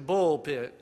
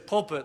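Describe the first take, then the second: First: It is said in a folksy provincial accent. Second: It is said in a plain, standard accent. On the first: "they say bullpit" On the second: "They don't say pulpit"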